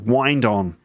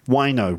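First: The D is pronounced and the words stay separate. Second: The D drops and the words blend together.

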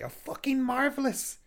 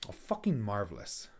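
First: It sounds genuinely delighted. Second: It sounds sarcastic and annoyed.

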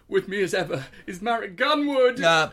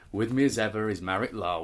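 First: It sounds forced-normal, with hidden tension underneath. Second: It is spoken in a flat, bored tone. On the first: "as if I was holding him hostage" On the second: "more and more bored"

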